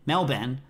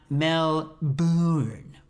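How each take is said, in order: First: Melbourne said as MEL-ben; Melbourne, no R, second half like Ben; rhymes with Ben. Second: Melbourne stretched out as mel-BOOORN; Melbourne with a drawn-out "boorn"; exaggerated wrong pronunciation. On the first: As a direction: say Melbourne with a short "Ben" at the end. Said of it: "like my brother Ben". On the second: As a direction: say Melbourne very slowly with a long oo. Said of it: "with, like, a lot of O's". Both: Shown as a demonstration.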